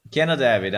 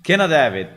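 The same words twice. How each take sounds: First: Said in the usual way. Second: Cannot have it, barked loud and firm; mock stern ban. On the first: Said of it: "repeat softer". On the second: Mocking the tool that bans Yorkshire, a loud stern refusal. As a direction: slam the door on it like a stern official. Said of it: "mock ban".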